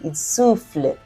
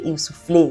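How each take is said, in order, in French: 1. Le E final reste muet. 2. Le E final se prononce. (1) "you say" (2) "although it ends with E, you don't say"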